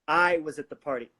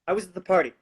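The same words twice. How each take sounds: First: The stress is on the word I. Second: The stress is on the word party.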